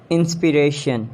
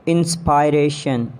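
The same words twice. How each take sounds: First: "Inspiration" as in-spi-RAY-shun; short I in "Inspiration"; British pronunciation. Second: "Inspiration" as in-spy-RAY-shun; long I in "Inspiration"; mispronounced inspiration. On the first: Shown as a demonstration. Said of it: "exact pronunciation according to the British". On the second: Acted. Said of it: "you have to correct me".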